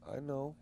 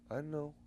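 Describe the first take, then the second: No difference in how they are said.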